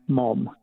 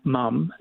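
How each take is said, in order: First: Mom said slowly as American "mom", open o as in father; slow, clear "mom" with an open ah vowel. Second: Mum said slowly as Australian "mum", short u as in cup; slow, clear "mum" with the vowel of cup. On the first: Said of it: "M O M". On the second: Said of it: "as in M U M". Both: Shown as a demonstration.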